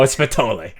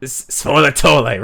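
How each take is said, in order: First: "Spatole" shortened to three syllables; "Spatole" ending in -lay; disputed pronunciation. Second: "svolatole" in four syllables, ending -lay; tentatively sounded-out "svolatole"; copied pronunciation. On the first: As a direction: say "Spatole" without the middle la. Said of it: "not look like how it's pronounced". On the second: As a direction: say "svolatole" as sfo-la-TOH-lay. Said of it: "also, it's svolatole". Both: Shown as a demonstration.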